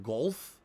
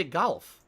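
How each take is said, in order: First: "golf" with a rounded "oh" vowel; supposed "golf" pronunciation. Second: "golf" as "gahlf", open vowel; own way of saying "golf". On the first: Streamer asking viewers if this is right, rounded "gohlf". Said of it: "Am I supposed to say golf?". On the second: Streamer showing viewers how he says golf, own regional vowel. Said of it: "I say golf". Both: Shown as a demonstration.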